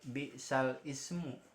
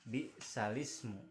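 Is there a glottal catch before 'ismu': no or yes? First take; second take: yes; no. First: A glottal catch separates the words before 'ismu'. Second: The words run together with no glottal catch. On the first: The speaker calls it wrong. "Jadi jangan dibaca bi'sal ismu" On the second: The speaker calls it right. "Bi'salismu dibacanya"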